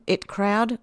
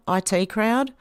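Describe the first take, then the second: First: "It" said as the pronoun it; IT read as word. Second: "I T" said as two letters, eye-tee; IT as initials. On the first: Host misreads a chat comment, "It" as one word. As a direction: say "It" as one short word, rhyming with bit. Misreads initials, then corrects herself. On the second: Host corrects a misread comment, "I T" as separate letters. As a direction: spell out "I T" letter by letter. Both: Real, not acted.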